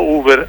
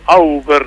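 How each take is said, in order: First: The name starts with an 'oo' sound. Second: The name starts with an 'ow' sound. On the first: The speaker calls it wrong. "no Uber" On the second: The speaker calls it right. "Habla Eduardo Auber"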